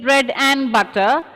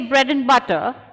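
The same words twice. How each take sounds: First: The word 'and' is said in full. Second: The word 'and' is reduced to a short 'n'. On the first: The speaker calls it wrong. "instead of saying bread and butter" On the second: The speaker calls it right. "If you say bread and butter"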